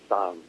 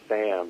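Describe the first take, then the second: First: The name has a slight British-sounding vowel. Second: The name has a plain local Canadian vowel. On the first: This is how people say it out west. "There's like a little British inflection in my name" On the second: This is how people say it in Ontario. "out here I'm Sam"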